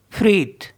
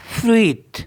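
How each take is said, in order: Both takes have the same delivery.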